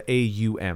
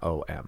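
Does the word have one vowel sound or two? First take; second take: two; one. First: The word glides through two different vowel sounds. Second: The word holds a single plain vowel sound. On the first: The speaker calls it right. "So AUM has like two different vowel sounds" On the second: The speaker calls it wrong. "It's actually not OM"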